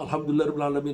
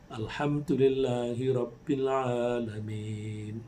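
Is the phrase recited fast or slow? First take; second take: fast; slow. First: It is recited quickly, run into following verses. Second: It is recited slowly, verse by verse. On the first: The speaker calls it wrong. "nggak usah. Pelan-pelan aja" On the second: The speaker calls it right. "dan bacalah dengan pelan-pelan"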